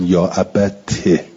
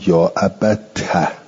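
First: The final t is followed by an i-vowel. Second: The final t is followed by an a-vowel. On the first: "والباقون به کسرها" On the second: "قرأ ابو جعفر و ابن عامر"

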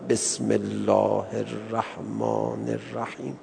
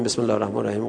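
First: It is recited slowly and unhurriedly. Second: It is recited quickly and hurriedly. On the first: The speaker calls it right. "آقا با چه تأنی میخوند" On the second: The speaker calls it wrong. "این چهار قلمون رو بخونیم"

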